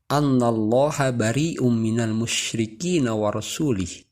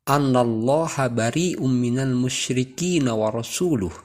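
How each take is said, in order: First: The last word ends with an 'i' vowel. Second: The last word ends with a 'u' vowel. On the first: God disowns the idolaters and his messenger. The speaker calls it wrong. "dengan mengkasrahkan huruf lam pada kata rasulihi yang seharusnya didomahkan" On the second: God and his messenger disown the idolaters. The speaker calls it right. "Seharusnya kalimat tersebut adalah"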